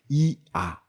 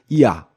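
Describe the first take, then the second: First: Two separate vowels are said slowly. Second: The two vowels are said quickly together. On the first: "두 개의 모음을 발음했죠" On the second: "얘를 빠르게 보면"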